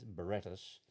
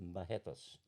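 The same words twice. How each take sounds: First: The name is said the way it is spelled. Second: The name is said differently from its spelling. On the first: "it's written as Barretos" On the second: "but it's pronounced Barretos"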